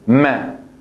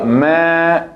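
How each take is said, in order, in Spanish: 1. La vocal es corta y seca. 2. La vocal es larga y se alarga. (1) "¿Y por qué es corta la vocal? Porque digamos que es ma" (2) "entonces es una primera, es una otra categoría"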